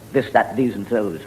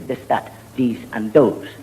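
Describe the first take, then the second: First: The words begin with a th sound. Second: The words begin with a d sound. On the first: "We never say" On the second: "the Irish, we have trouble with uh, the T and the H. We say"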